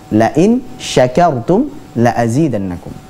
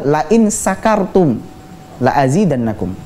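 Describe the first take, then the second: First: The word begins with an sh sound. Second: The word begins with a plain s sound. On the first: If you are grateful, I will increase it. The speaker calls it right. "Pakai shin" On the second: If you are drunk, I will increase it. The speaker calls it wrong. "huruf shin diganti dengan huruf sin"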